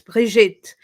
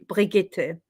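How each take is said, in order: First: The name has a French pronunciation. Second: The name has a German pronunciation. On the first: "I'm Swiss French, so it's" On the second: "If I was Swiss German, then it would be"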